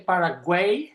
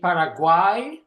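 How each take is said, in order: First: It is said with an English-style pronunciation. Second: It is said with the local-style pronunciation. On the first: The speaker calls it wrong. "don't say Paraguay" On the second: The speaker calls it right. "That's the way they pronounce the, the, the place"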